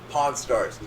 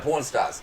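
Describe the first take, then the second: First: It is said in a plain standard accent. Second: It is said in a thick New Jersey accent.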